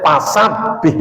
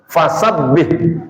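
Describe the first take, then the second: First: Slow "pasabih" with p for f; Sundanese pronunciation. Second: Slow "Fasabbih" with a clear f; standard pronunciation. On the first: Teacher showing how Sundanese people read it, p for f. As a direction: say "pasabih" slowly, popping p instead of f. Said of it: "orang Sunda". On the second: Teacher giving the correct word, slow clear f. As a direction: spell out "Fasabbih" slowly, lip on teeth for f. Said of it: "ngomong fa pasti pa". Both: Shown as a demonstration.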